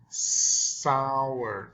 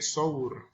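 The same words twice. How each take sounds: First: The vowel is said with a wide-open mouth. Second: The vowel is said with a narrow mouth. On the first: The speaker calls it right. "say sour" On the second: The speaker calls it wrong. "Don't say sour"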